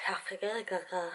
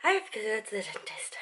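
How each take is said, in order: First: Breathy repeated whisper. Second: Said in the usual way. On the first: Shown as a demonstration. Telling viewers about the dentist, whispered. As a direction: whisper it to yourself.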